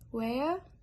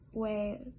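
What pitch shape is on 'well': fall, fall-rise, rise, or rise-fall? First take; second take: fall-rise; rise-fall. First: The pitch falls then rises on the word. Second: The pitch rises then falls on the word. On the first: "falling, rising" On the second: "Rising, falling"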